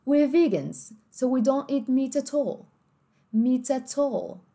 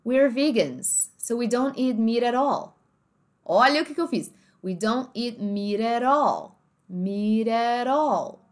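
First: Meat at all with each T crisp, meet at all; slow, every T sounded clearly; British marked T's. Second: Meat at all said as one word, mee-ra-rall; slow, linked, every T flapped; American linked speech. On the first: Teacher shows the British T's. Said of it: "se esses T's fossem marcados". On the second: Teacher shows linked American speech. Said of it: "no inglês mais americanizado". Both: Shown as a demonstration.

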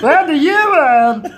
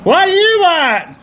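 First: Put-on much higher, louder, slow French accent. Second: High, slow mock French accent; hammed-up French accent. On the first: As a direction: belt it in a hammy French accent. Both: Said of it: "You should do that accent properly".

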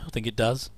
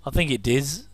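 First: Said in the usual way. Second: Does said as diz; I think it "diz", does rhymes with fizz; says diz. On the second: Shown as a demonstration. Viewer musing on the place name, saying "diz" for does. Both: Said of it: "does, diz".

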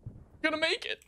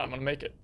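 First: Pitched up hoping to make it; rising, straining hope; hopeful high rise. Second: Said in the usual way. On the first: Real, not acted. Tense survival in game.

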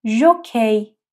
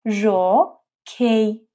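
First: ژوکی with a clear zh; Turkish word jokey. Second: ژوکی stretched very slowly; slow syllable demo. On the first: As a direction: say ژوکی with ژ buzzing. (ژوکی با ژ واضح) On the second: (ژوکی آهسته و کشیده) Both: Shown as a demonstration.

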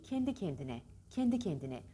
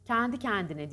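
First: Kendi with a narrow "e"; correct closed E. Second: Kendi said as "kändi", wide vowel; over-open the E in kendi; wrong open E. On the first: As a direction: model kendi kendine, vowels closed and neat. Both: Shown as a demonstration. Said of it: "Kendi kendine değil".

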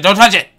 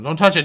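First: Loud, sharp warning yell; urgent, much louder repeat. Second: Firm warning at everyday volume; tense but contained warning. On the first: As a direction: shout it as the rock looms. Warning escalates near rock. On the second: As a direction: caution it before panic hits. Pleading as rock nears. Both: Real, not acted.

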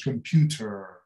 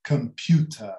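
First: "computer" with a sounded final r; American computer. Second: "computer" ending in a schwa, no r; British computer. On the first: Teacher showing the American way, "computer" ending in r. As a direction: say "computer" American-style, kuhm-PYOO-ter. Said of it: "os mais americanos". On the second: Teacher showing the British way, "computer" with r dropped. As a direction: say "computer" British-style, kuhm-PYOO-tuh. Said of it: "Se for britânico". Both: Shown as a demonstration.

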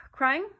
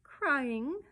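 First: High, loud, affronted "Crying?"; offended, loud echo of a question; indignant. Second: Raised, taunting question; mocking one-word query; jeering. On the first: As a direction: throw the word back indignantly. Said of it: "the starling drew himself up". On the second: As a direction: jeer with a rising "Crying?". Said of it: "jeered Mary Poppins". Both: A narrator's reading.

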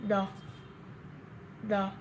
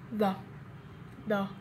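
The two takes are said the same way.

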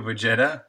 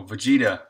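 First: Vegeta said vuh-JET-uh, rising; unsure pronunciation. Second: Vegeta said vuh-JEE-duh, falling; corrected pronunciation. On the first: Streamer checking a name with viewers, Vegeta as vuh-JET-uh. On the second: Streamer learning the name, Vegeta as vuh-JEE-duh. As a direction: say Vegeta with a long ee in the middle. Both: Shown as a demonstration. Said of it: "is it Vegeta or Vegeta?".

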